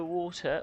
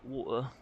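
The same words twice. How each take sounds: First: "water" with the T clearly sounded; crisp British T. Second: "water" with the T dropped to a catch; British glottal T. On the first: Asking which is preferred, "water" with a clear T. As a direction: articulate the T in "water". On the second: Offering the other option, "water" with a glottal T. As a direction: swallow the T in "water". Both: Shown as a demonstration. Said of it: "you can say it two ways".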